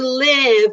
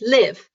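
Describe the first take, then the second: First: The vowel is drawn out and slow. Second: The vowel is short and quick. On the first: The speaker calls it wrong. "Don't do live" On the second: The speaker calls it right. "just live. Do it faster"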